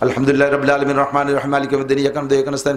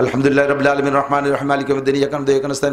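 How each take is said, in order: First: The verses are rushed together in one breath. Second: The verses are rushed together in one breath.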